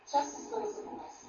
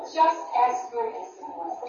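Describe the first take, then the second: First: Breathy whisper, much softer. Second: Said in the usual way. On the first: Shown as a demonstration. Preacher redoes the line for the girls as a whisper. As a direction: drop it to a hush. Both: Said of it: "That's not it".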